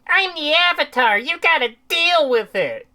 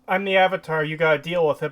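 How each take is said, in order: First: It is said in a smug, obnoxious way. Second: It is said in a plain, neutral way.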